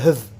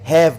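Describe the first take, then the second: First: The word has a weak, reduced vowel. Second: The word has a full, clear vowel.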